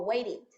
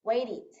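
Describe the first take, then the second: First: The ending vowel sounds like 'i'. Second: The ending vowel sounds like 'i'.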